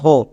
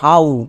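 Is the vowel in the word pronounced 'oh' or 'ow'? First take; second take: oh; ow. First: The vowel is a plain 'oh' sound. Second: The vowel is an 'ow' glide sound. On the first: The speaker calls it wrong. "কিন্তু আমরা এরকম উচ্চারণ করি না" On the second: The speaker calls it right. "এর জন্য আমরা উচ্চারণ করব হাউ"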